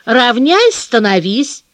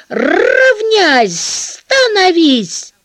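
First: Gentle coaxing command. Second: Loud, harsh drill-sergeant bark; rough barked command. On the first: Shown as a demonstration. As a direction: coax it kindly. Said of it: "ласковым, почти просительным голосом". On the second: Retold or imitated. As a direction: bark it like a gym teacher. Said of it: "Он очень грубо кричит, вот так".

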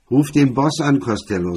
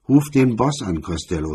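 First: Loud, blaring order over the shoulder. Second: Loud shouted demand; shouting. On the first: Drunk MacDonald blares at Costello, loud and blaring. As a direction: bellow it at him. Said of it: "sagte er mit schmetternder Stimme". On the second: MacDonald shouts at Costello to call the boss. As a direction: yell the order at him. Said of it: "schrie MacDonald". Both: A narrator's reading.

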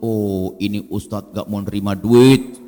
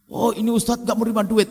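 First: Said in the usual way. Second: Higher, impressed gushing; admiring onlooker. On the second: Retold or imitated. People admiring the ustadz who refuses money, impressed. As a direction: marvel at the pious ustadz. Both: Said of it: "pengen disebut-sebut".

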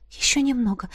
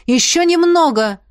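First: Hushed, softer urging; soft encouragement. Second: Loud, high encouraging call; raised voice urging them on. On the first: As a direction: coax them on quietly. Same encouragement repeated, much softer. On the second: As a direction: call down to climbers below. Calling encouragement from above. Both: A narrator's reading.

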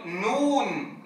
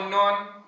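First: نون with the u held long, slow; right نون, long vowel. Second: نون with a short vowel; clipped wrong نون. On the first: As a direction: stretch نون fully, with a light laugh. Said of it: "وإنما يقول نون". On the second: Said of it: "لا يقول نون". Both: Shown as a demonstration.

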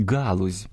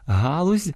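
First: Галузь said with a hard g; wrong hard g. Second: Галузь with a breathy h sound; галузь з м'яким г; soft h. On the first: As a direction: say «галузь» wrongly with a stop g, low and flat. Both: Shown as a demonstration. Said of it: "дехто вимовляє як".

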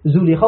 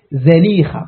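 First: زليخة pronounced "Zulikha", first vowel "u"; rounded "zu" starting زليخة; common damma pronunciation. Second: زليخة pronounced "Zalikha", first vowel "a"; fatha on the zay. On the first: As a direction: say زليخة as zu-LEE-kha. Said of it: "وإن كان المشهور على الألسن". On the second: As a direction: open "za" starting زليخة. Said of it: "بفتح الزاي". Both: Shown as a demonstration.

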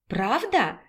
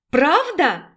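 First: Softly asked, falling question; mild surprise. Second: Higher, eager repeated question; excited disbelief. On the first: Raina hears her sister fried her favourite chebureki, mild surprise. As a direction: ask it softly, in quiet disbelief. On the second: Raina asks again about her favourite chebureki, excited disbelief. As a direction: ask it brightly, lifting the pitch. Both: A narrator's reading.

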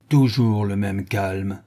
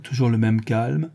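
First: Slow, held-in rage under the words; rumbling fury. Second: Said in the usual way. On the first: A narrator's reading. Sholmes throwing Wilson's words back, slow rumbling anger. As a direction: let the anger rumble beneath, slowly. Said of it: "un accent où grondait la plus effroyable colère".

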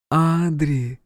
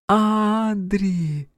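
First: Tender mother's call. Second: Put-on high child's call from afar; a little sister calling his name; Joanna calling. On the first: Acted. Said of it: "Голос мамы. Добрый, родной голос". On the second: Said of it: "Голос Жоанны".

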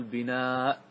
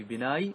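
First: "بناء" said slowly with a final hamza, bi-naa'; "بناء" drawn out, ending on a glottal stop; actual form. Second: "بناي" said with a final y glide, bi-naay; "بناي" pronounced as the original form ending in -y, no hamza; underlying form. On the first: Teacher giving students the real form, slow "بناء" ending in a glottal stop. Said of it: "نقول بناء". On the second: Teacher showing students the original form, said "بناي" ending in y. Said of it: "فنقول في بناي". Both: Shown as a demonstration.

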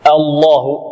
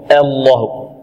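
First: الله with heavy lam and open a; correct Allah. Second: الله with the a slanted toward e; wrong Allah. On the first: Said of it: "نعم، وليس الله". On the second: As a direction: say الله with thinned vowel. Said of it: "خطأ هذا". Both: Shown as a demonstration.

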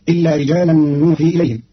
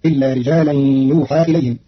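First: نوحي with nun, nuuhii; نوحي begins with n, nuuhii; standard reading. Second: يوحى with ya, yuuhaa; يوحى as yuuhaa, passive form; Qalun reading. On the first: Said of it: "بياء بدل النون". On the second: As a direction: start يوحى with y, end on long aa. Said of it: "فتصير". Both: Shown as a demonstration.

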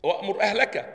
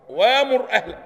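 First: "وأمر أهلك" with a glottal stop after wa; hamza sounded. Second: "وأمر أهلك" opening on a long waa, no glottal stop; hamza turned to alif. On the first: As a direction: cut the wa of "وأمر" on a still hamza. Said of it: "هنقول". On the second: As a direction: stretch "وأمر" as waa-mur, louder. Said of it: "مش كده؟". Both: Shown as a demonstration.

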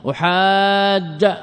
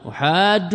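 First: أحاج very slow and higher, ending "-ja"; أحاج as "uhaaaajja"; fatha for jazm. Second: أحاج ending in "u", as "uhaajju"; أحاج with doubled jim and damma; raf' with damma. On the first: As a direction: draw out the "aa", then end أحاج on a clear "a". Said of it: "بالفتح على أنه مجزوم". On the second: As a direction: stretch the "aa", then end أحاج on "-ju". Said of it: "بالرفع". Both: Shown as a demonstration.

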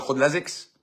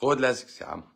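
First: A mock-incredulous «خد لازكس» with the voice rising on «لازكس»; mocking quote. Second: Said in the usual way. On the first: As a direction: quote the advice as if it were absurd, ending in a question. (اقتباس ساخر بنبرة استنكار) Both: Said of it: "مش عارف اقول لك".

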